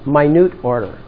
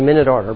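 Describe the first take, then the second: First: Minute sounds like the adjective meaning tiny. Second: Minute sounds like the unit of time. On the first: The speaker calls it right. "let's say it correctly" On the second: The speaker calls it wrong. "that's what everybody says"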